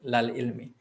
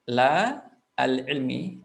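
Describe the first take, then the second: First: The article merges into one syllable with la. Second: The article is said as a separate syllable.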